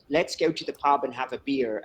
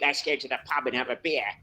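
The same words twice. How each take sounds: First: It is said in a clear standard English accent. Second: It is said in a working-class city accent. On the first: "has the good English accent, so he speaks very clearly" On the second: "That's a working class city accent"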